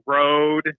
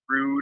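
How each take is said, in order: First: The name sounds like the word road. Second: The name sounds like the word rude. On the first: This is the American way to say it. The speaker calls it right. "but it's Rode" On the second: This is a weird way to say it. The speaker calls it wrong. "not Rude or whatever"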